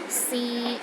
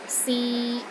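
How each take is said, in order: First: The pitch stays steady in the middle. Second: The same.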